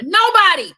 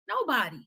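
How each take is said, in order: First: Shouted high and loud, full of defiance; defiant shout. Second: Quiet echo. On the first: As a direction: belt out Nobody. as a rallying cry. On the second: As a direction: let Nobody. fall away, almost under the breath. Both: Retold or imitated. Women refusing to fight war.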